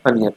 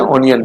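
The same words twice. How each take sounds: First: "अनियन" with a short uh first; correct pronunciation. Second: "ऑनियन" with O at the front; mispronunciation demo. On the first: Teacher giving the right onion after the wrong, uh-sound. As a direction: say "अनियन" briefly as uh-ni-yan. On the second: Teacher repeating what not to say, O-sound mispronounced. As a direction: say "ऑनियन" as on-i-yan. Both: Shown as a demonstration. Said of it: "ऑनियन नहीं".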